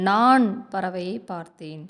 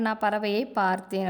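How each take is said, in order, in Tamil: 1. முதல் சொல்லில் அழுத்தம் வருகிறது. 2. கடைசிச் சொல்லில் அழுத்தம் வருகிறது. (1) "நான் அப்படிங்கிற சொல்லுக்கு நம்ம அழுத்தம் கொடுக்குறோம்" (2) "பார்த்தேன் அப்படிங்கிற சொல்லுக்கு அழுத்தம் கொடுக்குறோம்"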